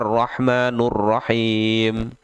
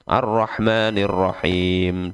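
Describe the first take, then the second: First: The vowel before Rahim is u. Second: The vowel before Rahim is i. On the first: The speaker calls it wrong. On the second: The speaker calls it right.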